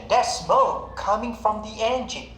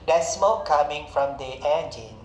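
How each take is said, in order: First: It is said with lively, explaining intonation. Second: It is said flatly, without explaining intonation. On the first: The speaker calls it right. "It must come with the appropriate intonation" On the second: The speaker calls it wrong. "Not just"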